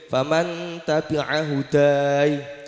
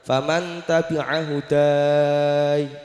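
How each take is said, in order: First: The final vowel is held for two counts. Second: The final vowel is held for four counts. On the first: "dua harokat"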